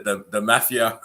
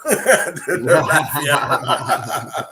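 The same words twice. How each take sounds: First: Said in the usual way. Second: Very slow, higher, laughing mafia; laughing mock-sinister the mafia; mock ominous. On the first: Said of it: "the mafia (repeated stretched)". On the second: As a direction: drag it out with a laugh like a joke threat. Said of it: "repeats it stretched".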